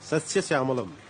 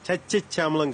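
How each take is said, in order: First: The word is pronounced carefully, with every sound clear. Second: The word is pronounced sloppily, with sounds slurred. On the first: The speaker calls it right. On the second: The speaker calls it wrong.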